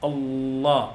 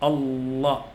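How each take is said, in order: No difference in how they are said.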